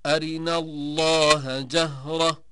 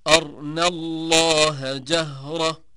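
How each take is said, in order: First: Slow chant, أرنا as "arina"; quick i between r and n in أرنا; short i on r. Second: Slow chant, أرنا as "arna", r without vowel; silent-vowel r. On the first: Teacher showing al-Duri's variant, أرنا chanted as "arina". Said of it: "قرأ الدوري عن أبي عمرو". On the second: Teacher showing al-Susi's reading, أرنا chanted as "arna". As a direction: join r straight to n in أرنا. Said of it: "قرأ ابن كثير والسوسي". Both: Shown as a demonstration.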